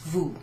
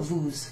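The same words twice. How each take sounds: First: The final s is silent. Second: A final s sound is pronounced. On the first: The speaker calls it right. "at the end it's just pronounced vous" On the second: The speaker calls it wrong. "not vous"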